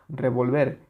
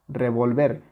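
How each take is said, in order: No difference in how they are said.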